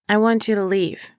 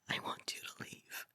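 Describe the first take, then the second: First: It is said in a plain, normal voice. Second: It is said in a whisper.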